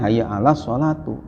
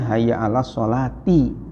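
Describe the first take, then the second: First: The last word ends with a u vowel. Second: The last word ends with an i vowel. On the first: The word wrongly takes the nominative case. The speaker calls it wrong. "bukan hayya ala sholatu" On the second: The word follows a preposition and takes the genitive case. The speaker calls it right. "jadi huruf menjarkan harusnya hayya ala sholati"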